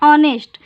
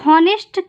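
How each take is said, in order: First: The word begins with a vowel sound. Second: The word begins with an h sound. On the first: The speaker calls it right. "इसको क्या पढ़ते हैं" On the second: The speaker calls it wrong. "ये गलत"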